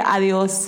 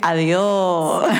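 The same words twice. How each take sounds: First: It is said fully, in standard Spanish. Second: It is said loosely, in a relaxed Andalusian accent. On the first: "like the rest of Spain" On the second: "They say adios"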